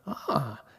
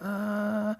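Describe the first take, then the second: First: It sounds like mild understanding. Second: It sounds hesitant, with some doubt.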